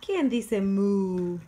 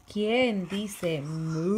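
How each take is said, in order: First: Louder, slow, stretched question; reading to baby. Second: Put-on loud, slow, stretched question for the baby; reading to baby. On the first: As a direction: ask it bigger and slower. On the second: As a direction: draw the question out big and slow. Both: Shown as a demonstration. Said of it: "reading to baby".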